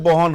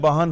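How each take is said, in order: First: It is said in a Kolkata accent. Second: It is said in an Allahabad accent. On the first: "Calcutta जाते बहन हो जाता है" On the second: "Allahabad आते हैं, बहन हो जाता है"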